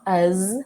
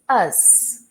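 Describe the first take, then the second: First: The word ends with a buzzing Z sound. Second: The word ends with a hissing S sound. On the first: The speaker calls it wrong. "So it's not us" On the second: The speaker calls it right. "the last sound is the S"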